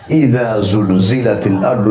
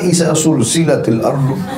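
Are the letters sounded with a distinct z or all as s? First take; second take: distinct z; all s. First: The letters are given distinct dh and z sounds. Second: Every one of those letters is pronounced as s. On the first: The speaker calls it right. "Begitu bacanya" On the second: The speaker calls it wrong. "jangan ... Semua dipukul rata dengan sin"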